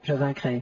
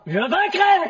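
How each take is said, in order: First: It is said at normal volume. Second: It is said loudly.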